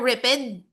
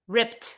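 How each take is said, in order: First: The ending is an extra syllable, ed. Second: The ending is a voiceless t sound. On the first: The speaker calls it wrong. "Hindi siya ripped" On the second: The speaker calls it right. "but instead t"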